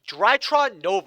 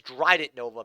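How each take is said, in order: First: The name ends with a 'tron' sound. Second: The name ends with a 'det' sound. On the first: The speaker calls it right. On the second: The speaker calls it wrong.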